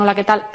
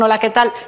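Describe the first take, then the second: First: The greeting sounds dry and curt. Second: The greeting sounds friendly, cheerful and energetic. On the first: The speaker is cold or unwelcoming. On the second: The speaker is glad to talk. "Simpático, alegre, con energía"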